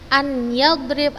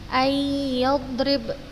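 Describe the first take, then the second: First: The n is kept as a separate sound. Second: The n merges into a nasalized y. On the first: The speaker calls it wrong. "Ustazah tidak membacanya an yadrib la" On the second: The speaker calls it right. "dimasukkan ke ya-nya dengan gunnah"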